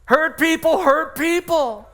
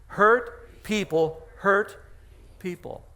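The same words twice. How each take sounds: First: Higher, louder, slow and emphatic; proclaimed. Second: "Hurt people hurt" dragged out very slow for the church to repeat; slow call-and-response. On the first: Pastor proclaiming slogan to congregation, higher and louder. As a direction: ring it out slowly like a headline. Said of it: "repeated slogan, proclaimed". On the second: Pastor leading congregation to repeat, very slow. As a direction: stretch "Hurt people hurt" slowly so they join in. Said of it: "Say that with me". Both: Shown as a demonstration.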